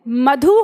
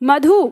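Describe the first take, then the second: First: The final u vowel is short. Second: The final u vowel is long. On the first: The speaker calls it right. "छोटा ऊ" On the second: The speaker calls it wrong. "बड़ा ऊ"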